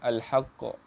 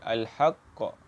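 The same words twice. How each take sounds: First: The doubled consonant is said lightly, without pressing. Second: The doubled consonant is pressed with extra emphasis. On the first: The speaker calls it wrong. "kita tak boleh baca dengan al-haqq" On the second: The speaker calls it right. "Dia kena tekankan sikit"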